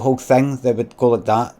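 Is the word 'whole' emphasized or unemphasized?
unemphasized. The word whole carries no special emphasis. The speaker calls it right. "so I'd do it again"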